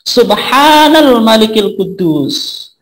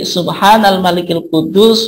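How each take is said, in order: First: The phrase is drawn out with a raised pitch. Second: The phrase is said at normal length and pitch.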